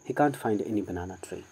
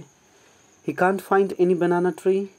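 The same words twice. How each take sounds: First: The voice falls at the end. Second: The voice rises at the end. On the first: It is a statement. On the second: It is a question.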